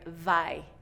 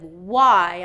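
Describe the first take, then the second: First: It begins with a v sound against the teeth. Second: It begins with a rounded-lip w sound. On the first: The speaker calls it wrong. "I'm hearing vai" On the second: The speaker calls it right. "Instead of why"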